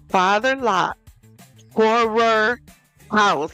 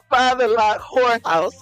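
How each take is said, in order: First: 'Horror' is said clearly with two syllables. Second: 'Horror' is squeezed into one syllable, like 'whore'. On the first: The speaker calls it right. "It's Father Locke horror house" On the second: The speaker calls it wrong. "I keep saying Father Locke whorehouse"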